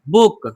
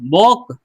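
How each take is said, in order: First: The vowel is an 'oo' sound. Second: The vowel is a short 'o' sound. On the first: The speaker calls it right. "डबल ओ अगर रहता है तो हम उसको ऊ पढ़ेंगे" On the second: The speaker calls it wrong. "बॉक नहीं"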